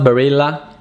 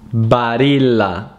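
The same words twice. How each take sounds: First: The name is said with an American English pronunciation. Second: The name is said with an Italian pronunciation. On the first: The speaker calls it wrong. "It's not Barilla" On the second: The speaker calls it right. "it's Barilla"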